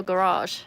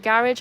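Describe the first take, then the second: First: Garage said guh-RAHZH, stress last; alternative pronunciation of garage. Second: Garage said GARR-idge, stress first; British pronunciation of garage. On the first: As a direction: stretch the second syllable of garage, guh-RAHZH. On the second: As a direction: say garage to rhyme with carriage. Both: Shown as a demonstration. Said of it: "is it garage or garage?".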